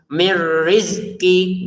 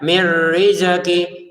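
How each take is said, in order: First: The z and k are joined without a vowel. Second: An extra vowel is inserted between z and k. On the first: The speaker calls it right. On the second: The speaker calls it wrong.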